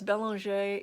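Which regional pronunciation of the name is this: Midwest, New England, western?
New England. The name is said the New England way. "if you're up in the New England area"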